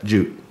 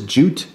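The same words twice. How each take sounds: First: The final T sound is almost silent. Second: The final T sound is clearly pronounced. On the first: "my natural Jersey accent, when I say jute, the T is almost non-existent" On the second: "I'm trying to, you know, stress the T"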